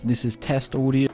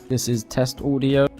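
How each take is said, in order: First: The voice sounds muffled and drowned out. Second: The voice sounds clear and easy to hear. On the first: The speaker calls it wrong. "this drowned out audio" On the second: The speaker calls it right. "a lot more clearer at the bottom and a lot more easier to hear"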